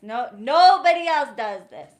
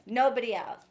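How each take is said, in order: First: A sudden loud exasperated burst; exasperated outburst. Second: Said in the usual way. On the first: Real, not acted. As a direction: throw it at them, fed up. Ranting at viewers.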